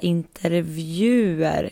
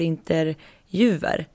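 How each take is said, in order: First: The v sound comes before the j sound. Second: The j sound comes before the v sound. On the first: The speaker calls it right. "att ni börjar säga intervjuer" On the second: The speaker calls it wrong. "istället för interjuver, som i kodjuver"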